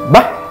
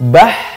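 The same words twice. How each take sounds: First: The final h is cut off with held breath. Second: The final h flows out with free breath. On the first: The speaker calls it wrong. "Tidak boleh mengucapkannya tertahan nafasnya" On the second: The speaker calls it right. "mengalir nafasnya"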